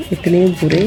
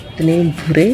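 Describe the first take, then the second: No difference in how they are said.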